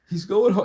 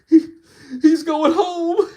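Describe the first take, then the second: First: It is said in a menacing, sinister tone. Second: It is said in a tearful, crying voice. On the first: "even if he tries" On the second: "Even if you start crying"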